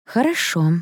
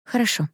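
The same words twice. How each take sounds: First: Хорошо stretched through a stifled yawn; bored, yawny хорошо; suppressed yawn. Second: Quick, raised-pitch хорошо; short, higher-pitched placating word; hasty agreement. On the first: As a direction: agree while fighting a yawn, pitch up. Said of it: "с трудом подавила я зевок". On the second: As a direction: agree hurriedly to end the talk. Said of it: "торопливо согласилась я". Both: A narrator's reading.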